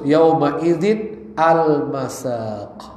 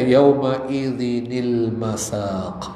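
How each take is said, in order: First: 'Al masaq' starts separately, sounding cut off. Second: A short 'ni' sound links smoothly into 'l masaq'. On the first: The speaker calls it wrong. "Kalau nggak dikasih nun wikoya akan seperti terputus" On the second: The speaker calls it right. "untuk bisa dibaca"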